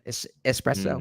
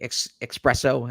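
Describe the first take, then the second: First: The word starts with an 'es' sound. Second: The word starts with an 'ex' sound. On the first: The speaker calls it right. "instead of es- espresso" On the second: The speaker calls it wrong. "when people say ex- espresso"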